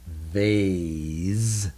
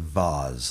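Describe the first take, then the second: First: The A is a long vowel sound. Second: The A is a short vowel sound. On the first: The speaker calls it right. "So if we want to follow the rules, we would pronounce this vase" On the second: The speaker calls it wrong. "instead of vase like some people do"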